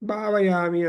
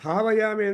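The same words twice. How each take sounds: First: The first consonant is said without a breathy puff. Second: The first consonant is said with a breathy puff. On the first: The speaker calls it wrong. "ಬಕಾರ ಹೋಗ್ಬಿಟ್ಟು ಅಲ್ಪ ಪ್ರಾಣ ಆಗಿಬಿಡುತ್ತೆ" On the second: The speaker calls it right. "ಎಷ್ಟು ಜನ ಭಾವಯಾಮಿ ಅಂತ ಹೇಳ್ತಾರಪ್ಪ?"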